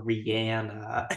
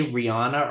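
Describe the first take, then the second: First: [name] said ree-ANN-a, as in "Anne"; variant pronunciation. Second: [name] said ree-AH-na, open "ah"; variant pronunciation. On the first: Quoting Laird's other option, [name] as ree-ANN-a. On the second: Quoting Laird asking how it is said, [name] as ree-AH-na. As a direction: say [name] with "AH" in the middle. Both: Retold or imitated. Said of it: "Do you say [name] or".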